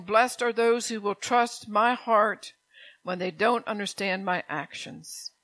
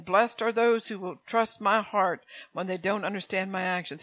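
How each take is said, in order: First: Slow, weighty quote of Jesus; solemn slow scripture line; slow emphatic reading. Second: Said in the usual way. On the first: Shown as a demonstration. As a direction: lean on each word slowly. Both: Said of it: "Jesus is saying".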